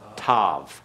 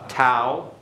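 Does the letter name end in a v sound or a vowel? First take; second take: v sound; vowel. First: The name ends with a v sound. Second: The name ends in a vowel sound.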